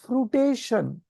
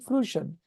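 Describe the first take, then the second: First: The word has four syllables, with an extra 'ta'. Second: The word has three syllables, with no extra 'ta'. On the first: The speaker calls it wrong. "I thought it is fruition. So F R U I T A T I O N" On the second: The speaker calls it right. "but it is actually fruition"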